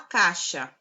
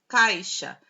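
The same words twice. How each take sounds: First: The first syllable drops the i glide entirely. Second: The first syllable keeps a light i glide.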